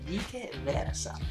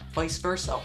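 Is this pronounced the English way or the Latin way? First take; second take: Latin; English. First: It is pronounced the classical Latin way. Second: It is pronounced the usual English way. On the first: The speaker calls it right. "the more correct, cool way to say it, the Latin pronunciation" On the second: The speaker calls it wrong. "I used a lot without knowing what it meant"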